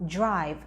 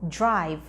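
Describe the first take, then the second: First: The start is quick and sounds like j. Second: The same.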